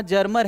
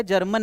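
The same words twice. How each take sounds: First: जर्मर ending in an R sound; Germer with final R. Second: जर्मन ending in an N sound; misread as German. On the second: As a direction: say जर्मन with a final "n" in place of "r". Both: Shown as a demonstration. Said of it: "जर्मन नहीं है".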